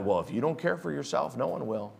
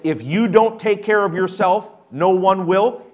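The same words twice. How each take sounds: First: Quiet dismissive quote. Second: Louder mock quote. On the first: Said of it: "a lie from the devil". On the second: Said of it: "let me say that again". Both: Shown as a demonstration.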